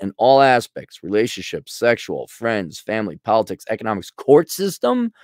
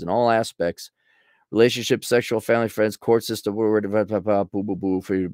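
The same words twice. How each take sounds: First: Reading it through. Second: Skim the list, trailing into mumbled gibberish; skimming read. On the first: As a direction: read item by item, rising into disbelief. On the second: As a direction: run the items together and give up. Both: Real, not acted. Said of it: "okay, let me read through it".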